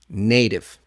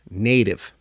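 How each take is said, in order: First: The middle T is a quick, light flap. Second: The middle T is a quick, light flap.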